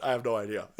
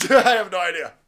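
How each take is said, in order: First: Said in the usual way. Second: Laughing. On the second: Real, not acted. Repeated with a laugh.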